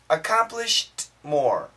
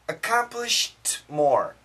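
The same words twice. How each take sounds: The two takes are said the same way.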